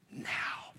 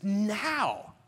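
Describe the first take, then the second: First: Whispered, barely voiced "Now"; hushed answer. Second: Higher, fully voiced "Now"; emphatic answer. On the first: Student answering whether he believes, in a hushed whisper. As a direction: breathe the word out very softly. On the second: Student answering the second belief question, emphatic and voiced. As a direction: draw out "Now" with conviction.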